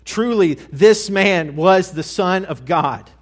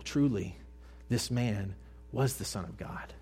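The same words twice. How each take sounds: First: Loud, high, slow cry of realization; shrieking proclamation. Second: Quiet reverent echo. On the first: Acted. Centurion at the cross crying out his realization, loud and high. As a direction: shout it out as the truth hits him. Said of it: "and he shrieks". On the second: A narrator's reading. Preacher repeating the centurion's words to the congregation, hushed and low. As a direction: let the words settle, hushed.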